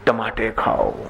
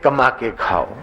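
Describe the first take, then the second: First: The k sounds are replaced by t sounds. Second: The phrase begins with a k sound. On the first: A lisping speaker says it this way. The speaker calls it wrong. "तोतले हैं ना तो क को ट बोलते" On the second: This is what the father means to say. The speaker calls it right. "वो बोलना चाहते कमा के खाओ"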